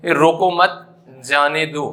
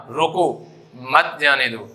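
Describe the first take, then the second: First: "रोको मत" together, pause, then "जाने दो"; group "रोको मत", break before "जाने दो"; pause after मत. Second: "रोको" alone, pause, then "मत जाने दो" with "मत" falling; pause after रोको. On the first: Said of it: "मतलब इसे रोकना नहीं है". ("मत" के बाद ठहराव) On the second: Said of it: "तो उसे मत जाने दो". ("रोको" के बाद ठहराव) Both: Shown as a demonstration.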